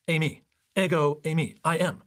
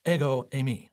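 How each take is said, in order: First: "Ego, eimi" said as eh-go ay-mee; Greek pronunciation. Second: "Ego, eimi" as eh-go ay-mee, weighty; Greek phrase. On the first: Teacher voicing the Greek "Ego, eimi" to the congregation, careful Greek. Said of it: "ego, and then the verb to be". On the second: Preacher voicing Jesus' Greek answer, solemn Greek. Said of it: "And Jesus simply says". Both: Shown as a demonstration.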